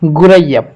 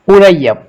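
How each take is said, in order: First: The word starts with a gh sound. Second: The word starts with a glottal stop. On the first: "لو نحن نستخدم بالغين" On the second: "لو نحن نستخدم بالهمزة"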